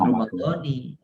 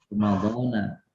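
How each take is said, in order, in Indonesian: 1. Kata ini berakhir dengan vokal 'i'. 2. Kata ini berakhir dengan vokal 'a'. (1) "bukan Ramadhani"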